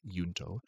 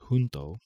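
First: The word starts with a Y sound. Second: The word does not start with a Y sound. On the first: This is how the original group's name was said. "It's believed it was pronounced with a Y" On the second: This is the Spanish word meaning together. "there is a Spanish word pronounced junto"

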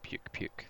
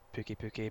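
First: It is said like the English word 'puke'. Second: It is said with a Japanese reading, 'pookie'. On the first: "but it's like Puke Puke. It's spelt like that" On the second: "the name just comes from the Japanese name, I guess that's just Pookie Pookie"

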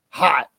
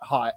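First: The word is said with strong, exaggerated emphasis. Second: The word is said in a plain, ordinary way. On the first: The thing is extremely attractive and exciting. The speaker calls it right. "the type of hot that makes you say hot" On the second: The thing is only mildly attractive. The speaker calls it wrong. "not hot"

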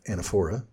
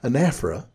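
First: It is given a guessed, read-aloud pronunciation. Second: It is given the standard dictionary pronunciation. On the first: The speaker calls it wrong. "instead of anaphora" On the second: The speaker calls it right. "anaphora is how this is pronounced"

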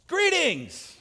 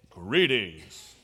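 First: It is said in a sudden, playful way. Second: It is said in a plain, calm way.

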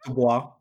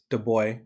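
First: The name is said with French-style sounds. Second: The name is said with English-style sounds. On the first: The speaker calls it right. "We can speak French. It's 2020. It's Du Bois" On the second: The speaker calls it wrong. "Some of you know him as Du Bois"

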